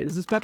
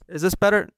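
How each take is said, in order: First: It is spoken at a normal volume. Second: It is spoken loudly, almost yelled.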